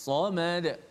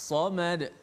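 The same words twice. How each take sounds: Both takes have the same delivery.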